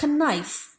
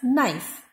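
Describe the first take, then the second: First: The word begins with a pronounced k sound. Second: The word begins without any k sound. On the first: The speaker calls it wrong. "It is not knife" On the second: The speaker calls it right. "It is knife"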